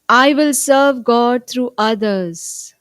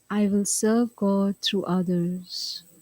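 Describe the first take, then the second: First: The sentence is spoken loudly. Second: The sentence is spoken softly. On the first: "let's affirm together loudly" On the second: "Little softer now"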